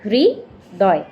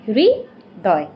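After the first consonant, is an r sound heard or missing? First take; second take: heard; heard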